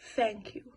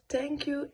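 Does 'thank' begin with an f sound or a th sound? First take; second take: f; th. First: The first sound is an f sound. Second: The first sound is a th sound. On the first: "they pronounce the t as an f" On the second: "instead of"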